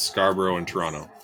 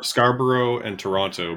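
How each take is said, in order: First: It is said the way Toronto locals say it. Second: It is said the way outsiders to Toronto say it.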